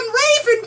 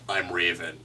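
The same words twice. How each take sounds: First: It is said in a high, bubbly cartoon voice. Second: It is said in a flat, deadpan voice.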